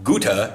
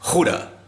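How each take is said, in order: First: The word starts with a hard G. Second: The word starts with a raspy throat sound. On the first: The speaker calls it wrong. "So it's not Gute" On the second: The speaker calls it right. "gets so far back, you're almost horking something up"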